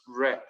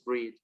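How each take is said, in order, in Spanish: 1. La vocal suena como la de 'bed'. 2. La vocal suena como la de 'see'. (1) "en el pasado el verbo es read" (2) "en la forma base es read"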